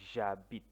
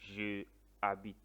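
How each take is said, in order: First: Je is elided into the verb. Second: Je is a full separate syllable. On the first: The speaker calls it right. "but j'habite" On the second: The speaker calls it wrong. "you don't say je habite"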